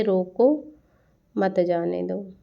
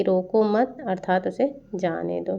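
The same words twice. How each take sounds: First: रोको, a clear break, then मत जाने दो; pause after रोको. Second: रोको मत joined, break before जाने दो; pause after मत. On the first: Teacher showing how meaning shifts, pause after रोको before मत जाने दो. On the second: Teacher showing the opposite meaning, रोको मत as one phrase, pause after मत. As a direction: run रोको into मत, then pause. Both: Shown as a demonstration. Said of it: "अर्ध विराम की वजह से".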